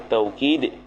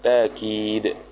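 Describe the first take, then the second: First: The first syllable has an 'au' diphthong. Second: The first syllable has a long 'a' vowel. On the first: "Bil wawi jar majrur dengan waw" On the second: "dengan alif"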